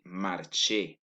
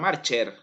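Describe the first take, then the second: First: The final r is silent. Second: The final r is pronounced. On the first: The speaker calls it right. "c'est marcher" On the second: The speaker calls it wrong. "Ce n'est pas marcher"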